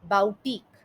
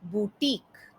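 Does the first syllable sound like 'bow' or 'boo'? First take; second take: bow; boo. First: The first syllable sounds like 'bow'. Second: The first syllable sounds like 'boo'. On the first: The speaker calls it wrong. "बुटीक का गलत उच्चारण इस तरीके से किया जाता है" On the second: The speaker calls it right. "बुटीक का सही उच्चारण इस तरीके से है"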